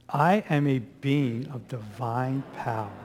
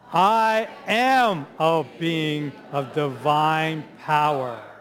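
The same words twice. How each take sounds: First: It is said calmly, without extra force. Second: It is said loudly and with strong energy.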